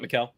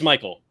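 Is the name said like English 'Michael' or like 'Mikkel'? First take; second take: Mikkel; Michael. First: It sounds like Mikkel, with a short vowel. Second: It sounds like the English name Michael. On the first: The speaker calls it wrong. "not Mikkel" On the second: The speaker calls it right. "It is Michael"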